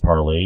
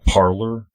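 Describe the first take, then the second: First: The word ends with an 'ay' sound. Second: The word ends with an 'r' sound. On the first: This is the French way of saying it. "I think it's pronounced parlay" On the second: This is how most Americans say it. "most Americans will say Parlor"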